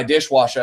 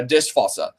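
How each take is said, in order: First: Said in the usual way. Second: Dishwasser said as a German word, with v for w; mock German pronunciation. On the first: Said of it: "I'll take regular words". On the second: Shown as a demonstration. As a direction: make Dishwasser sound German. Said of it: "turn them into German words".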